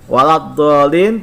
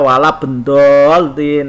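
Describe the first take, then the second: First: It is said with a dh sound: waladhdhallin. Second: It is said with a b and d: walabendolin. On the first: The speaker calls it right. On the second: The speaker calls it wrong.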